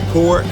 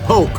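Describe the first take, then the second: First: The word is said with an r sound. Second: The word is said without an r sound. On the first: This is how other people say it. "Some people pronounce it pork" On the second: This is how the speaker's own people say it. "We call it poke"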